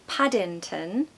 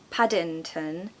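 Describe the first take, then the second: No difference in how they are said.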